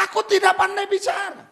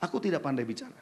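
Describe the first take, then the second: First: Shouted, stress on tidak; preacher booming the excuse back; loud quote. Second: Low, soft, meek mumble of a shy man; quietly putting on a timid voice; mock timid excuse. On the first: Retold or imitated. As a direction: throw the excuse out at full voice. Preacher repeats excuse forcefully. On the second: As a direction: sound small and unsure of yourself.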